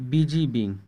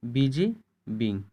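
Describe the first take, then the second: First: Said in the usual way. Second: "busy" rising, pause, then "being" falling; word by word. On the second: Shown as a demonstration. Teacher splits phrase to show sounds.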